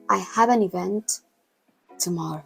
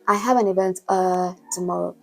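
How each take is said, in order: First: A silent pause comes before 'tomorrow'. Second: A filler 'uh' comes before 'tomorrow'.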